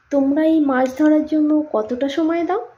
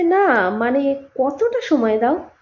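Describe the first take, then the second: First: Said in the usual way. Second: Slow, drawn-out emphasis on কতটা; stress on কতটা. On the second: Acted. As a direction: press the question by stretching কতটা. Tourist asks again, pressing for amount.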